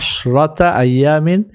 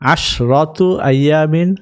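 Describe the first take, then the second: First: The first word ends with an 'a' vowel. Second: The first word ends with a 'u' vowel. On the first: The phrase is an adverb of time in the accusative. "যখন এটা মাফুলুন ফিহি হিসাবে আসবে তখন এটা মানসুব হয়ে যাবে" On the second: The phrase is in the nominative case. "অথবা পেশ দিয়ে"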